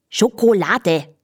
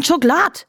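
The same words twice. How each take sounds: First: "Schokolade" slowly, every syllable sounded; careful standard pronunciation. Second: High Viennese "Schokolade", shortened to "Schoklad". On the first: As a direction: spell out "Schokolade" syllable by syllable, Scho-ko-la-de. Repeated clearly for the puzzled horse. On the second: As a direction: say "Schokolade" as dialect "Schoklad", pitched up. Dialect word, then spelled out. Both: A narrator's reading.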